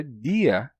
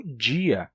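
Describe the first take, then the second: First: Said in the usual way. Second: "dia" with a J sound, DJI-a; palatalized D. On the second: Shown as a demonstration. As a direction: start "dia" like English "jeans". ("dia" com som de dji) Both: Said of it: "pronuncia a palavra dia como dia".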